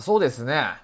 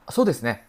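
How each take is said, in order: First: It sounds hesitant, like pausing to think. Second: It sounds like quick, ready agreement. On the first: The speaker is thinking about how to answer. "怎么跟你形容呢？ 这种感觉啊" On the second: The speaker agrees with the suggestion. "表示赞同"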